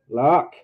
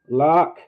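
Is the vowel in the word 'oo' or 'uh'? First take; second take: uh; uh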